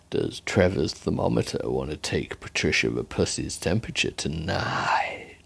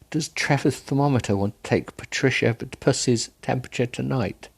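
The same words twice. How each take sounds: First: It is said in a slurred, seductive voice. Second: It is read in a plain, neutral voice.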